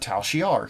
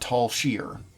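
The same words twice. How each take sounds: First: The name is pronounced the usual, standard way. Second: The name is pronounced in a different, altered way. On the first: The speaker calls it right. "their name is the Tal Shiar" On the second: The speaker calls it wrong. "He calls them the Tal Shiar"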